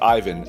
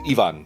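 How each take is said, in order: First: The name is said the American way. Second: The name is said the European way. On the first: "Ivans that were born and raised in the states, and they pronounce it Ivan" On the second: "the proper way to pronounce it in Europe is Ivan"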